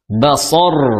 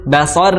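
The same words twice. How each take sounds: First: The final r sounds heavy and full. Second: The final r sounds light and thin. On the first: The speaker calls it right. "rohnya tebal" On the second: The speaker calls it wrong. "itu kurang tepat. Harusnya tebal"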